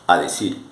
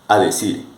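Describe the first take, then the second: The two takes are said the same way.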